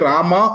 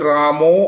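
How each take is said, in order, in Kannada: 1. ಕೊನೆಯ ಸ್ವರ ತೆರೆದ 'a' ಧ್ವನಿ. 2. ಕೊನೆಯ ಸ್ವರ ದುಂಡಗಿನ 'o' ಧ್ವನಿ. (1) "ನಮಗೆ ರಾಮ ಅಂತ ಹೇಳಲಿಕ್ಕೆ ಶಕ್ತಿಯನ್ನು ಭಗವಂತ ನೀಡಿದ್ದಾನೆ" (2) "ಬೆಂಗಾಲಿಗಳು ... ಅವರ ನಾಲಿಗೆ ಆತರ ಇರುತ್ತೆ, ರಾಮೋ ಅಂತ ಬರುತ್ತೆ ಅವರಿಗೆ"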